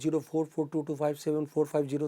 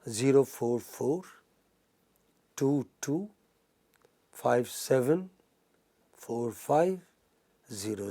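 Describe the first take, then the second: First: The digits are rushed together without pauses. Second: The digits are grouped in pairs with pauses. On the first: The speaker calls it wrong. "rather than be in a hurry, don't say that" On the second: The speaker calls it right. "best is speak it in pairs"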